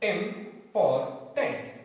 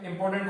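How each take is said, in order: First: इम्पोर्टेंट slowly in three separate beats, इम-पोर-टेंट; इम्पोर्टेंट broken up like a learner spelling out syllables; split into syllables. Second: Said in the usual way. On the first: Shown as a demonstration. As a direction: sound out इम्पोर्टेंट piece by piece. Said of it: "इंपॉर्टेंट को पढ़ना start किया". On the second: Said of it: "इंपॉर्टेंट नहीं पढ़ पा रहे हैं".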